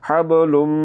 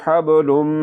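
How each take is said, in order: The two takes are said the same way.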